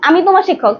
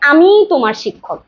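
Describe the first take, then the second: First: The sentence is said with little emphasis. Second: The word 'আমি' is said with strong emphasis. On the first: A plain statement of who the speaker is. "দেখেন এখানে জোর কম" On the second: It is this person and no other who is the teacher. "জোর দেওয়ার ক্ষেত্রে"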